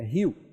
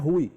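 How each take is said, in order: First: It is said like 'hyoo', one glided vowel. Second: It is said like 'hoo-ee', two vowels. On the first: The speaker calls it right. "é Rio" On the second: The speaker calls it wrong. "não é Rui"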